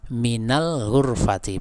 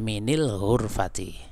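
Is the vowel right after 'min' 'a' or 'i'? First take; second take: a; i. First: The vowel after min is a. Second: The vowel after min is i. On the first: The speaker calls it right. "min ketika setelahnya berawalan al maka jadinya mina" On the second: The speaker calls it wrong. "bukan minil hurfati"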